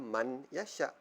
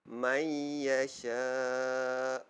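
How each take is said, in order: First: The n sound is pronounced clearly before y. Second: The n sound merges into y with nasalization. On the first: The speaker calls it wrong. "Tapi kita tidak boleh baca man yasha" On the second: The speaker calls it right. "Kita masukkan bunyi huruf man, nun mati man tadi tu ke dalam bunyi ya"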